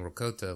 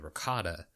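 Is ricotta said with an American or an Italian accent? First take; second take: Italian; American. First: It is said with an Italian pronunciation. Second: It is said with an American pronunciation. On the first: "which is more like the Italian way" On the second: "saying it as like American would say ricotta"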